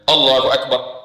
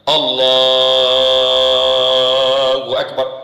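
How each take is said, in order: First: The phrase is said short and quick. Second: The phrase is drawn out long.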